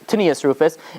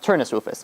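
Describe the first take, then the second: First: The first name is said as Tinius. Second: The first name is said as Turnus. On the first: This is the form used in secular sources. "in the secular sources, it's pronounced"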